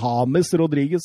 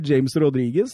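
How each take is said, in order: First: The name is said the native Spanish way. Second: The name is said in a local, anglicized way.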